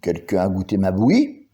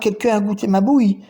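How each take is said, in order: First: It is said in Papa Bear's deep voice. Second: It is said in Mama Bear's medium voice.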